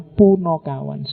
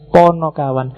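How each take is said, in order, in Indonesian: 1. Vokal pertama terdengar seperti 'u'. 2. Vokal pertama terdengar seperti 'o'. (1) "orang sering salah menyebutnya" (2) "sebenarnya yang pas"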